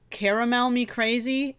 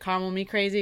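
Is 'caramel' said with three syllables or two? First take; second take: three; two. First: Caramel is said with three full syllables. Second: Caramel is said with two syllables, like 'call'. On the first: The speaker calls it wrong. "I was calling it caramel me crazy" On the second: The speaker calls it right. "sounds like call me crazy"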